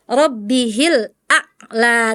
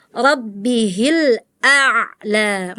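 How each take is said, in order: First: RABBIHIL A'LA with A' cut short, gap before LA; chopped ain. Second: RABBIHIL A'LA with A' held briefly into LA; flowing ain. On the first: Retold or imitated. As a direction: imitate the student's abrupt stop in A'LA. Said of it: "Tadi Farel gitu". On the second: Shown as a demonstration. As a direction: slowly let the ain flow in A'LA. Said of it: "Ngalir dikit".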